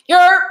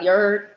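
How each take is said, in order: First: Yerp shouted higher and louder; yelled New York call. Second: Said in the usual way. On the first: Real, not acted. Hyping New York to the stream, a loud Yerp. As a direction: belt out Yerp like a street call.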